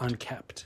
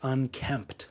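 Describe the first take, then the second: First: The word has no m sound, like kept. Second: The word has an m sound before the p. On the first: The speaker calls it wrong. "people say unkept" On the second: The speaker calls it right. "don't know that it's unkempt"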